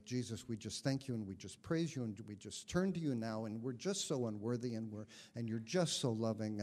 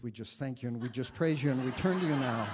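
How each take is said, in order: First: Gently mock the friend's heartfelt praying style; a light take on a just-so-humble free prayer; mimicking Al's prayer. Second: Rushed, louder prayer breaking into a laugh; fast, loud praying that dissolves into laughter; surprised own prayer. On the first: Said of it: "he'd pray". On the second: Real, not acted. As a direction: blurt the friend's words and catch yourself laughing. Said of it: "astonished by the words that came out of my mouth".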